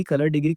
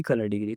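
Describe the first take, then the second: First: Said in the usual way. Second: colour degree echoed much softer and lower; quiet repeat. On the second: Shown as a demonstration. Teacher repeating the term to students, softly and low. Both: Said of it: "फिर colour degree".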